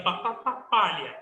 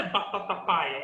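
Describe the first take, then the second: First: "batata palha" with a clear lh; pronúncia correta. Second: "batata paia" with a y glide, no l; pronúncia errada. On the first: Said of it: "é batata palha". ("batata palha", com "lh" bem pronunciado) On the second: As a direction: say "paia" as PIE-a. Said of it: "não é batata paia". ("batata paia", sem o som de "lh") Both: Shown as a demonstration.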